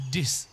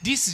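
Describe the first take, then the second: First: "This" with a lax, short i; relaxed short i. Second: "This" with a too-distinct ee sound, like "dees"; over-clear i. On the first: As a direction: say "This" without opening the mouth much. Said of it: "口あまり開きすぎない". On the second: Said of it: "はっきりしすぎないね". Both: Shown as a demonstration.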